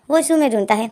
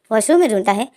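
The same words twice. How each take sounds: The two takes are said the same way.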